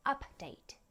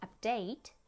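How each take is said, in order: First: "update" as a noun, high UP, then falling DATE; stress on first syllable. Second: "Update" as a verb, stressed on DATE, rising at the end; stress on second syllable. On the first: Teacher showing how stress changes word class, "update" stressed on UP. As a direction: hit UP in "update" and let DATE drop. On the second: Teacher showing how stress changes word class, "Update" stressed on DATE. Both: Shown as a demonstration. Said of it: "en modifiant la syllabe accentuée dans un mot".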